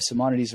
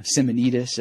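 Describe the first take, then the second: First: Simonides said sy-MON-i-deez; usual pronunciation. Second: Simonides said sim-uh-NEE-dus; alternative pronunciation. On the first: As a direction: stress the second syllable of Simonides, ending in deez. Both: Shown as a demonstration. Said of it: "as some people pronounce it".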